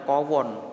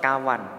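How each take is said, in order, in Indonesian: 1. Kedua vokal diucapkan sebagai o. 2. Kedua vokal diucapkan sebagai a. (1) "jangan dibaca kowon" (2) "tetap kawan"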